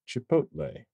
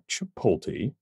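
First: The L sound comes after the T sound. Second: The L sound comes before the T sound. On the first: The speaker calls it right. "The L clearly comes after the T" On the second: The speaker calls it wrong. "it is not Chipotle"

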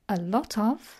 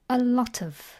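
First: Each word is said separately and fully. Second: The t links into of, giving tuv. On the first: "We can say a lot of" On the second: "or unstressed, a lot of. The T collides with the O and joins it to make tuv"

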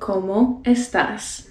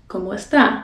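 First: Both S sounds in estás are pronounced. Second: The final S of estás is dropped. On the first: This is the standard way to say it. "You can say" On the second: This sounds Dominican. "If you want to really sound Dominican, drop the S at the end"

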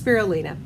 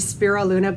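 First: The word does not end like 'Luna'. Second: The word ends with a sound like 'Luna'. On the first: The speaker calls it right. "but it's spirulina" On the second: The speaker calls it wrong. "I always think of the children's story Stella Luna, and so I say spirulina"

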